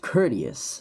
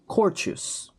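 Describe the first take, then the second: First: It uses the standard English pronunciation. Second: It uses the common Filipino pronunciation. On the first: The speaker calls it right. "It's pronounced courteous" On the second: The speaker calls it wrong. "for so long, pronounced it as courteous"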